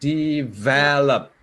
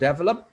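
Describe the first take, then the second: First: The stress is on the middle syllable. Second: The stress is not on the middle syllable. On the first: The speaker calls it right. "I'm highlighting the middle one here because that's where the stress is" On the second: The speaker calls it wrong. "the standard pronunciation is not develop"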